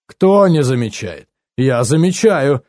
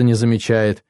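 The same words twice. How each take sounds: First: Slow, mildly stern retort; a touch of a strict father, taking his time. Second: Said in the usual way. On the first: A narrator's reading. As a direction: object sternly, stretching the words. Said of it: "сказал отец строго".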